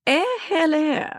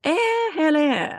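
First: High posh English "Eh, hello"; imitating a posh British lady's greeting; upper crust British. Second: Slow, high posh British "eh, hello"; drawn-out mock upper crust English greeting. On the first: Teaching a friend her upper crust hello, mock posh British. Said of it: "Chris taught me". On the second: Showing the upper crust way, slow posh British. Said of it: "the upper crust way".

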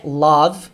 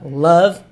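First: "love" with an open o, like "lawv"; the learner's wrong "love"; mispronounced LOVE. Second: "Love" with a short "uh" vowel, louder; "Love" stressed with an uh sound; correct LOVE. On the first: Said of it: "Não é love". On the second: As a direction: say "Love" as "luhv". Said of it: "com som de a". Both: Shown as a demonstration.

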